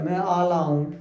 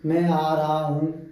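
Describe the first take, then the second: First: Sounds are swapped and dropped, like a child. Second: Every sound is pronounced clearly and fully. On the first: The speaker calls it wrong. "तो बच्चा कह मैं आला हूं" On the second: The speaker calls it right. "जैसे मैं आ रहा हूं"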